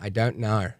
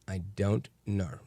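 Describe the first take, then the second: First: It is said in a put-on Australian accent. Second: It is said in his ordinary American accent.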